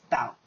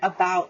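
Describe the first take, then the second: First: The unstressed first syllable is dropped entirely. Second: The unstressed first syllable is fully pronounced.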